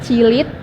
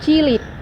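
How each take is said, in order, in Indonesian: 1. Konsonan akhirnya berbunyi seperti t. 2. Konsonan akhirnya berbunyi seperti d. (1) "bunyi T atau D" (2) "bunyi T atau D"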